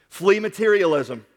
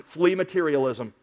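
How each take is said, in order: First: "Flee" leaned on, the whole phrase slower; stress on flee. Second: Said in the usual way. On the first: Shown as a demonstration. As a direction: drive home "Flee materialism" slowly.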